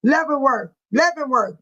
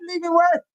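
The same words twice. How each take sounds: First: "Leavenworth" said as LEV-en-worth, short e; practised pronunciation. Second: "Leavenworth" tried as LEE-ven-worth, questioning, higher; trial pronunciation. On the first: Host practising the word for Sean, careful pronunciation. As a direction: say "Leavenworth" evenly, first syllable LEV. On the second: Host attempting a word Sean asked for, trial pronunciation. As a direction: say "Leavenworth" with a long ee first, unsure. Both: Shown as a demonstration. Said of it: "Did I say it right?".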